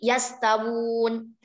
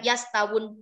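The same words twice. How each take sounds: First: The vowel in the last syllable is long. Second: The vowel in the last syllable is short. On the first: The speaker calls it right. "ini kan dibaca panjang ya wunya" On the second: The speaker calls it wrong. "bukan yastawun, bukan"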